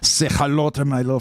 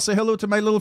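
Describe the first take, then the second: First: It is said in a put-on Italian-style accent. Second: It is said in the speaker's ordinary voice. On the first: The speaker calls it right. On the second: The speaker calls it wrong.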